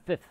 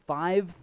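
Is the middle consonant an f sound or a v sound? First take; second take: f sound; v sound. First: The word is said with an f sound. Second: The word is said with a v sound. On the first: The speaker calls it right. "Why is it with an F there?" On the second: The speaker calls it wrong. "we don't say 5th"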